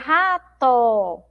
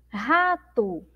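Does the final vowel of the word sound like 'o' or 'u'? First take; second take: o; u. First: The final vowel sounds like a clear 'o'. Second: The final vowel sounds like a 'u'. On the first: The speaker calls it wrong. "Nós escrevemos aí com O, mas a gente não pronuncia rato" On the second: The speaker calls it right. "ela parece ter o som de U"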